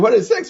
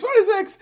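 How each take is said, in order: First: Higher "What is sex?" with a rising end; mock baffled question. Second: "What is sex?" much higher, falling at the end; mock baffled repeat. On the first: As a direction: ask it as if puzzled. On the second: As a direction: repeat it in squeaky disbelief. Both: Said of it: "Someone is checking".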